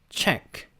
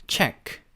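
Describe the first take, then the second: Both takes have the same delivery.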